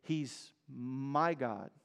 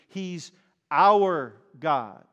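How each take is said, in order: First: "He's my God." said soft and slow, almost to yourself; personal, intimate. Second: "He's our God." loud and slow, with the weight on "our"; congregational declaration. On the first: A believer speaking privately of God, soft and slow. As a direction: say it softly and slowly, as a private confession. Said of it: "To personalize it". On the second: The congregation declaring together, loud with stress on "our". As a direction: lean on "our" as the whole church declares it. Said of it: "for the whole congregation". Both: Shown as a demonstration.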